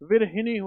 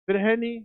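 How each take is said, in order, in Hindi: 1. बीच का हिस्सा 'hi' बोला जाता है, मूर्धन्य 'n' के साथ। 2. बीच का हिस्सा 'ha' बोला जाता है, सामान्य 'n' के साथ। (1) "विरहिणी होता है" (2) "विरहनी नहीं होकर"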